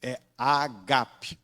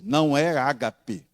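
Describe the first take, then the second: First: Agape slow, stress on the second A; pronúncia grega correta. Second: Ágape with the stress on the first A, as the wrong version; "ágape" com acento na primeira sílaba; pronúncia errada. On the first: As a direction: say agape slowly, leaning on the second A. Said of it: "não é ágape, é agape". ("agape" devagar, com acento no segundo A) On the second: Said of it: "gravem isso na mente de vocês". ("ágape" tônica no primeiro A, forma errada) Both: Shown as a demonstration.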